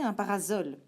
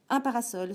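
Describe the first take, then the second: First: The middle consonant is a buzzing z sound. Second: The middle consonant is a hissing s sound. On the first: This is what the spelling rule would predict. The speaker calls it wrong. "on devrait donc prononcer un parasol" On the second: This is how the word is really said. The speaker calls it right. "Mais non, on prononce un parasol"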